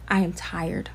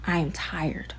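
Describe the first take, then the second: First: Said in the usual way. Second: Whispered I am tired, breath only. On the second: Real, not acted. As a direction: let the words fall to a weary whisper. Repeated line, whispered.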